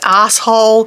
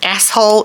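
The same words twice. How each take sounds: First: It is said with an Australian pronunciation. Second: It is said with a non-Australian pronunciation. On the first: "Now that's Australian" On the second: "is not the way Australians say it"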